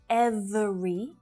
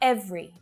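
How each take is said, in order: First: The word is said with three syllables. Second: The word is said with two syllables. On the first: The speaker calls it wrong. "not every" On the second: The speaker calls it right. "just two syllables"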